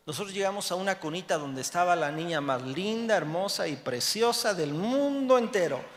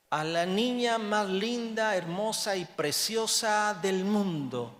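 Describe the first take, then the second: First: Said in the usual way. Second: Tearful prayer. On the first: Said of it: "same phrase told plainly". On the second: Retold or imitated. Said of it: "llorando le dijimos".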